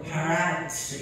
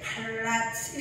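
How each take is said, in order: First: The L sound is pronounced faintly, barely there. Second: The L sound is pronounced strongly and clearly. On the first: "있는 둥 없는 둥 하면서 이게 리을에다 갖다 붙여가지고" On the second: "우리들은 그냥 세게 팔라츠 이렇게 하는 것 같은데"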